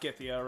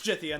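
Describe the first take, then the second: First: The name begins with a hard G sound. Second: The name begins with a soft J sound. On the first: The speaker calls it wrong. "not Githia" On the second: The speaker calls it right. "it's Jithia"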